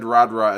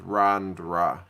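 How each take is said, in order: First: It is said without an n before d. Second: It is said with an n before d. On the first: The speaker calls it wrong. "there's an invisible N in those words" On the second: The speaker calls it right. "is actually Rand Randra"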